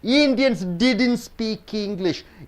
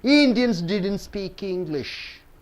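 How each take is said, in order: Both takes have the same delivery.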